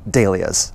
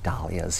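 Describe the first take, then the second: First: The word uses the British pronunciation. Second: The word uses the American pronunciation. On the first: "I've really just adopted as much as, you know, the, all the British pronunciations of things" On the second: "We say dahlias here in America"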